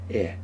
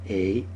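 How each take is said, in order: First: The vowel is a short 'eh' sound. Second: The vowel is a long 'ay' sound. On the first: This is the modern Israeli way of saying the vowel. The speaker calls it right. "it's eh" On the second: This is the older American way of saying the vowel. The speaker calls it wrong. "So it's not a"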